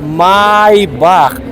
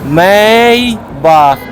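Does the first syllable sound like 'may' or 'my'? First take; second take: my; may. First: The first syllable sounds like 'my'. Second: The first syllable sounds like 'may'. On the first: The speaker calls it right. "а Майбах. Правильно" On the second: The speaker calls it wrong. "не Мейбах"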